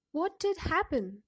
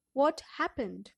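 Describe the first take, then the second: First: Did pressed hard and loud; stress on did. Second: Said in the usual way. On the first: Shown as a demonstration. Teacher showing the class emphatic did. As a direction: lean on "did" in "What did happen". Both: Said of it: "This is the way of asking the question".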